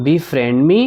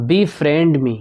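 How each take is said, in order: First: "me" lifted up at the end as a question; rising question tune. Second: Said in the usual way. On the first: Shown as a demonstration. Teacher repeating the phrase for learners, rising question tune on "me". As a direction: ask "Befriend me" with the pitch climbing on "me".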